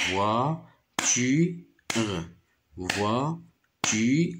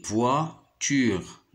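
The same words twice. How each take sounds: First: Voiture split into voi... tu... re; three separate beats, voi - tu - re; syllable by syllable. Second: Said in the usual way. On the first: Shown as a demonstration. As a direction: beat out each syllable of voiture. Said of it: "je le frappe pour repérer le son". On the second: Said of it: "Je dis le mot".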